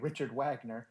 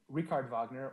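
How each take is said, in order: First: Wagner is said the American way, with a W sound. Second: Wagner is said the German way, with a V sound.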